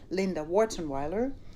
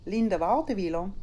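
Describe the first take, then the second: First: The name is said in an English way. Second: The name is said in a Swiss German way.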